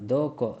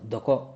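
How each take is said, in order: First: The first vowel is drawn out long. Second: The first vowel is kept short. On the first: The speaker calls it wrong. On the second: The speaker calls it right.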